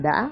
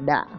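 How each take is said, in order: First: The pitch breaks and rises to end high. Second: The pitch drops low and ends heavily. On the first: This is the standard pronunciation. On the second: This is how the Central region says it.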